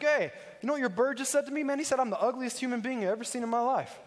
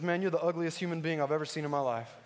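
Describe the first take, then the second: First: High-pitched mock indignation; mad customer. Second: Lightly voiced parrot, casual and matter-of-fact; an understated parrot delivering an insult; talking parrot. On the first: Insulted customer to the pet store owner, mock outraged complaint. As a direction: imitate an offended customer complaining. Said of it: "Guy gets all mad". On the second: Parrot to a passing customer in the pet store, understated insult. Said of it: "the parrot looks at him and says".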